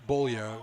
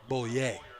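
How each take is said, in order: First: The name is pronounced the English way. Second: The name is pronounced the French way. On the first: This is how most people say the name. "probably people saying, well, that's Bollier" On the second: This is the speaker's own French pronunciation. "I'm a Frenchman. I pronounce it Bollier"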